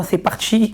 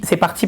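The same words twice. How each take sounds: First: "parti" slurred towards "partchi"; slip of the tongue. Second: Said in the usual way. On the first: Real, not acted. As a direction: trip on "parti", saying it like "partchi".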